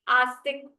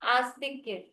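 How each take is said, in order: First: The word ends on a bare 'k' sound. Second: The word ends with a full 'kya' syllable.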